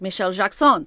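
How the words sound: The first name has a European-style pronunciation.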